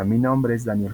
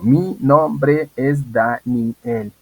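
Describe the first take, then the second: First: It is said smoothly, without hesitations or breaks. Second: It is said haltingly, with hesitations and breaks. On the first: The speaker calls it right. "que se escuche fluido" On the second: The speaker calls it wrong. "evitar cosas como"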